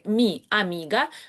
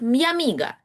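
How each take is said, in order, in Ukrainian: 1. Два слова вимовляються окремо, голосні чіткі. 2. Слова зливаються: i плавно переходить в a. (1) "окремими словами" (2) "в живій розмові звучить як"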